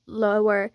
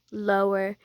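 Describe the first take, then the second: No difference in how they are said.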